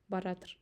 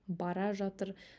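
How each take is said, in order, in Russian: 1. Слова сливаются в одно сокращённое слово. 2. Оба слова произносятся полностью и отдельно. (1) "мы говорим келятыр, баратыр" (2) "мы пишем келе жатыр, бара жатыр"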